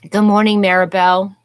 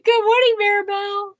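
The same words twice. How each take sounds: First: The greeting sounds flat and not very cheerful. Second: The greeting sounds bright and cheerful. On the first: The speaker calls it wrong. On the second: The speaker calls it right.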